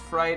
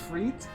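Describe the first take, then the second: First: The vowel sounds like 'eye'. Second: The vowel sounds like 'ee'. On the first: This is the American pronunciation. "pronunciation in American English is fright" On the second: This is the British pronunciation. "But in British English, it's freet"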